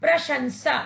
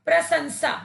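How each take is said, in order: First: प्रशंसा with a clear श, "प्र-शंसा"; teacher modelling the correct प्रशंसा with the श sound; correct pronunciation. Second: प्रशंसा said as "प्रसंसा", with स in place of श; teacher demonstrating the wrong प्रशंसा: "प्रसंसा" with स; wrong pronunciation. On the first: Teacher showing children the right form, प्रशंसा with a clear श. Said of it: "इसका शुद्ध उच्चारण होगा". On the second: Teacher showing children the mistake, प्रशंसा as "प्रसंसा". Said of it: "इस शब्द में स का प्रयोग करने से ये शब्द अशुद्ध हो गया है". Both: Shown as a demonstration.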